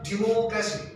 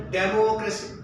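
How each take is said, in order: First: Democracy opening with 'di', not 'dem'; corrected pronunciation. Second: Democracy with first syllable said 'DEM'; common mispronunciation. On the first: Shown as a demonstration. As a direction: model democracy as di-MO-cracy. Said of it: "instead of democracy". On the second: Retold or imitated. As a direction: imitate students saying democracy with 'dem' at the start. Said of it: "they say democracy".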